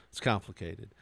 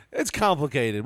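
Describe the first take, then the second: First: Low, soft dodge; mock evasive answer. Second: Slightly raised, emphatic delivery; mock explanation. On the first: Evasive reply about the toxicology, low and soft. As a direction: drop down and brush it off quietly. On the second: Podcaster mocking the toxicology report's wording, pointed and slightly raised.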